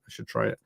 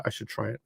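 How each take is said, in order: First: Unvoiced whisper of the same line. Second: Said in the usual way. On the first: Shown as a demonstration. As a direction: breathe it out unvoiced. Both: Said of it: "repeated in a whisper".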